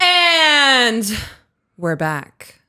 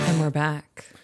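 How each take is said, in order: First: It is said very loudly and big. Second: It is said at a normal, modest volume.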